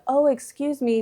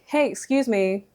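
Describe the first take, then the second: First: It is said softly and meekly. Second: It is said firmly and clearly.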